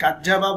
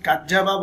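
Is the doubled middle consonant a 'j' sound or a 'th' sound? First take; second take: j; j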